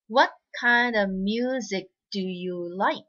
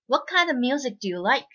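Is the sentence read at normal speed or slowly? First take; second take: slowly; normal speed. First: The sentence is read slowly. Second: The sentence is read at normal speed. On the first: "最初ちょっとゆっくり読んで、" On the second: "2 回目普通の速さにしましょうね。"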